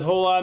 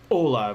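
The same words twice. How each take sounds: First: The h at the start is pronounced hard. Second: The h at the start is silent. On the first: The speaker calls it wrong. "I pronounced the H a little too hard" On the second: The speaker calls it right. "There we go"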